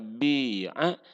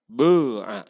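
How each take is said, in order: First: The first vowel is a clear i sound. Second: The first vowel falls between u and i. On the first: "bisa bi'a" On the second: "jadi antara antara bu'a dan bi'a itu ismam ya"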